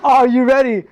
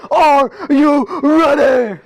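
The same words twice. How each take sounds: First: Hype question. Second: Slow, stretched, higher wrestling-style hype call; hype announcer call. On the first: Real, not acted. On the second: Acted. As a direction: drag it out like a ring announcer. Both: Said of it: "I said".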